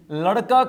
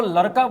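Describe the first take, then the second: First: Said in the usual way. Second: लड़का with r in place of ड़. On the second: Retold or imitated. Teacher quoting an eighth-class girl, लड़का said with r. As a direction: say लड़का as "laraka", imitating the pupil. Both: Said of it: "ड की जगह पे वो र बोल रही है".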